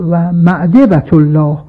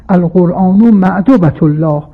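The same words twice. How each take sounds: First: معدبة said with e, as ma'debat, slower; ma'daba reading. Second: معدبة said with o, as ma'dobat; ma'duba reading. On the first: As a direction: draw out معدبة with the open middle vowel. (معدبة را با فتحه و آهسته بخوان، مَأدَبة) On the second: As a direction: stress the o vowel in معدبة, ma-do-ba. (معدبة را با ضمه بخوان، مَأدُبة) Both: Shown as a demonstration.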